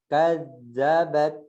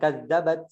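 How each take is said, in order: First: The word is said slowly and evenly. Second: The word is said quickly and rushed. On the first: The speaker calls it right. "jangan cepet-cepet" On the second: The speaker calls it wrong. "jangan kadzabat"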